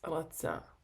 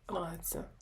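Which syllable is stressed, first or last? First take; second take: last; first. First: The stress is on the last syllable. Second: The stress is on the first syllable. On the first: This is the form required by grammar rules. "відповідно до правил граматики, треба ставити наголос" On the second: This is how it is said in everyday speech. "в розмовній мові наголос падає на перший склад"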